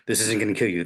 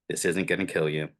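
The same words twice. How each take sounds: First: It is said fast and panicky. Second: It is said slowly and calmly.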